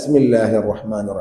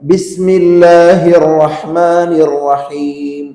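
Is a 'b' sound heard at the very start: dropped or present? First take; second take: dropped; present. First: It begins with 's', the 'b' left out. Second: It begins with a clear 'b' sound. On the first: The speaker calls it wrong. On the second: The speaker calls it right.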